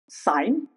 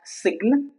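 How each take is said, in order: First: The G is silent. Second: The G is pronounced. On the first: The speaker calls it right. "the G is obviously silent all the time" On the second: The speaker calls it wrong. "it's not sign"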